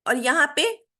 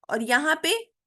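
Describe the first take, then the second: No difference in how they are said.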